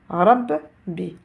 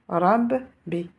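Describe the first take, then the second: The two takes are said the same way.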